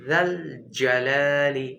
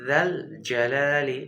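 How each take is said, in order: No difference in how they are said.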